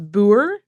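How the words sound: It is said with a Dutch or Afrikaans pronunciation. "the Dutch or Afrikaans version"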